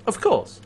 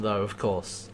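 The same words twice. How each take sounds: First: Of course pitched much higher, falling; mock knowing repeat of Of course; sarcastic echo. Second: Said in the usual way. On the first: Shown as a demonstration.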